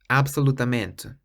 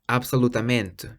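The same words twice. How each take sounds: The two takes are said the same way.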